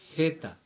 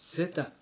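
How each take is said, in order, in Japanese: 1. 「th」の音で始まります。舌を歯の間に入れます。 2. 普通の「s」の音で始まります。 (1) "舌を少し噛むように発音してください" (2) "エセと同じように日本語の発音で"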